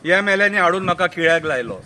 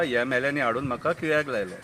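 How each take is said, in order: First: Full-voiced recited line; declaimed verse. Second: Soft, much lower echo of the verse; low aside. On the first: Madgaon politician blames the MLAs, declaimed. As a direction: declaim it out to the audience. First take of repeated verse. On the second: Acted. Narrator repeats the Madgaon man's excuse, low aside. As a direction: drop it to a confiding undertone.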